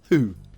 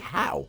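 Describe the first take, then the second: First: The vowel is a long 'oo' sound. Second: The vowel is an 'ow' sound. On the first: "it's H O U. Who?" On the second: "It could be how"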